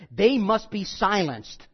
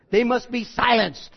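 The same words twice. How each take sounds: First: Said in the usual way. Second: A hint of a mob boss ordering a hit, a bit louder; lightly voiced godfather giving the order; Don Corleone. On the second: Preacher recasting Paul's words as a mafia hit, lightly voiced mob boss. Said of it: "if that was Don Corleone".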